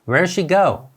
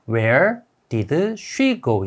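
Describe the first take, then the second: First: 'Where did' is linked so 'did' nearly disappears. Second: Each word, including 'did', is pronounced separately and fully. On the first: "Where did가 연음으로 되어서 Where she go 이렇게 발음이 됩니다" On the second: "우리가 아는 영어의 소리는"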